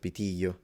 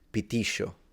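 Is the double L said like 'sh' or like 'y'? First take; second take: y; sh. First: The double L sounds like 'y'. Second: The double L sounds like 'sh'. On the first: This is how it sounds in other regions. "instead of pitillo" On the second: This is how it sounds in Argentina. "the Argentinian would read pitillo"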